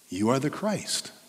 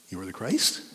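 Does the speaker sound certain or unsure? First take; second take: certain; unsure. First: It is said as a certain, plain statement. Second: It is said unsurely, like a guessing question. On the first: The speaker is confident of the answer. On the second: The speaker is checking whether the answer is right.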